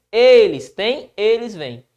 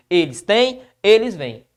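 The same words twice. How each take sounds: First: Eles têm, eles vêm with Eles said slowly and leaned on; slow stress on eles. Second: Said in the usual way. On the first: Shown as a demonstration. Teacher stressing the subject eles for students, slow and louder. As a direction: draw out Eles to point at the plural subject. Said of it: "Perceba que eles aqui". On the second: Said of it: "o sujeito aqui é eles".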